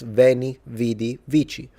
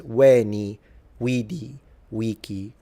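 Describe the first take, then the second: First: It uses the ecclesiastical Latin pronunciation. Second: It uses classical pronunciation with all vowels long. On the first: This is how the Church reads Latin. "if you read it in ecclesiastical, it's" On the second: This is how the Romans would have said it. "if you really want to say it in classical ... They're all long"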